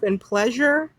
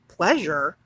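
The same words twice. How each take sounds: First: Said in the usual way. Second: Pleasure dropped lower and drawn out in scorn; mock-stressed pleasure. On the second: Shown as a demonstration. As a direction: sneer the word pleasure like a punchline. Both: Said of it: "and most importantly".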